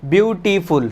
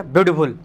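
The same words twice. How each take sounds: First: beautiful in three distinct beats; deliberate, segmented beautiful; broken into three syllables. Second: beautiful blurted as one quick piece; fast, unsplit beautiful; all in one go. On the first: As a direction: separate each syllable of beautiful, beau-ti-ful. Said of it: "तीन बार हो रहा है". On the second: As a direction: run beautiful together without breaks between syllables. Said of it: "ऐसा हो रहा क्या". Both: Shown as a demonstration.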